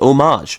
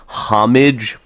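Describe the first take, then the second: First: It is said an unusual, unexpected way. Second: It is said the ordinary English way. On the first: The speaker calls it right. "it's actually pronounced homage" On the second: The speaker calls it wrong. "it's spelled homage"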